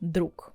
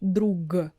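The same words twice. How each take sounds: First: The word ends with a voiceless k sound. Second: The word ends with a voiced g sound. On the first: The speaker calls it right. "we pronounce with k sound at the end" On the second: The speaker calls it wrong. "We're not saying drug. We're not using clear g at the end"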